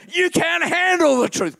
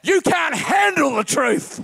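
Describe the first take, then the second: First: Loud, much higher repeated movie line; Jack Nicholson impression. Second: Loud, higher barked movie line; Jack Nicholson impression. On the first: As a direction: hit it harder like the colonel. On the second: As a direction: snap it like the angry colonel. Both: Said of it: "it's Jack Nicholson".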